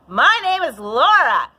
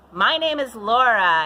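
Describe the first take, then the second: First: It is spoken higher, in a full belting register. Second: It is spoken low, in normal chest voice. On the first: "this is a full second register" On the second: "first register, which is chest voice, your normal speaking voice"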